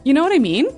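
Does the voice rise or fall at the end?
rise. It is said as a question, rising.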